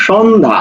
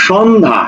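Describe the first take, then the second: The two takes are said the same way.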